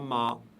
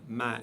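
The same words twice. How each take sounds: First: The syllable is pronounced heavy and full. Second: The syllable is pronounced light and thin. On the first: The speaker calls it wrong. "et non pas" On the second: The speaker calls it right. "prononcé légèrement"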